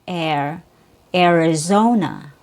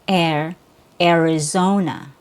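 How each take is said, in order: Both takes have the same delivery.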